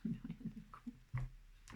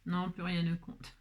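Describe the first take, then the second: First: "Plus rien ne compte" whispered slowly, no voice; slow hushed whisper. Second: Said in the usual way. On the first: Shown as a demonstration. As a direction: breathe it out slowly as a secret. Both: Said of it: "repeats it as a whisper".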